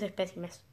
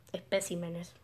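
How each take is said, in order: First: "espécimes" with the stress on the second syllable, PÉ; trying out a pronunciation. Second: "especímenes" with the stress on the accented í, CÍ; softly retry "especímenes", leaning on CÍ; correcting a pronunciation. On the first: Gamer unsure how to pronounce the word, trying "espécimes" stressed on PÉ. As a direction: test "espécimes", leaning on PÉ. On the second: Gamer checking the word from the note, "especímenes" stressed on CÍ. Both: Shown as a demonstration. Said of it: "parece que tiene acento en la I".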